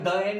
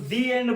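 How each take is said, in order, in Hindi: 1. 'the' को 'thuh' कहा जाता है। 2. 'the' को 'thee' कहा जाता है। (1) "कोई द एंड नहीं बोलता" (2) "उसे सब लोग दी एंड बोलते हैं"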